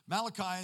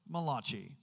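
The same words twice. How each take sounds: First: The name is said in a plain English accent. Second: The name is said in an Italian accent.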